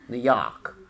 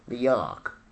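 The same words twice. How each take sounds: First: It is said in a New York accent. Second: The same.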